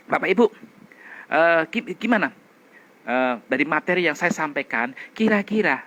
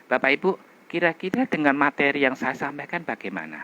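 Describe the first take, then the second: First: Said in the usual way. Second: Fluent, even ask; smooth friendly question. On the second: Shown as a demonstration. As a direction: invite the audience smoothly. (bertanya lancar dan ramah) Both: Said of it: "sekarang bandingkan dengan gini".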